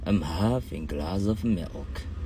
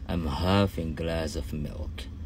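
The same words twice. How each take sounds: Both takes have the same delivery.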